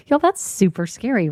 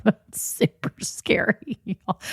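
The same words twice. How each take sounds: First: Said in the usual way. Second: Breathless, voiceless laugh through the words; real laughter swallowing the words. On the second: Real, not acted. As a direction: squeeze it out slowly while laughing. Laughs over scary marriage commitment.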